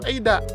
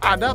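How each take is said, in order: First: The first vowel sounds like 'ay'. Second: The first vowel sounds like 'ah'. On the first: The speaker calls it right. "dibacanya Eida" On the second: The speaker calls it wrong. "tulisannya ada"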